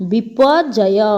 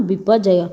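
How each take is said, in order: First: Slow and clear. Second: Said in the usual way. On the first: Shown as a demonstration. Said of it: "next ଆସିଲା". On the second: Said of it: "କ'ଣ?".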